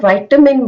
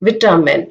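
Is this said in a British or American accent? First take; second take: American; British. First: It is said in an American accent. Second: It is said in a British accent. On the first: This is the American pronunciation. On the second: This is the British pronunciation.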